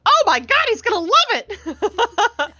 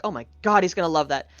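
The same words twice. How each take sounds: First: Very high, loud gushing, imitated; excited squeal. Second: Said in the usual way. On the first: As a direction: squeal it and stretch out the end. Retells handler's gushing reaction.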